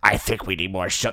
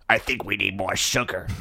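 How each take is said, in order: First: Same odd fish-guy voice; fish man. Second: Low, strange fish creature voice; lazy deep fishman murmur; fish man. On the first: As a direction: repeat the low fishman line. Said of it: "That's what he says". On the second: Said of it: "That's your Fishman voice?". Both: Acted.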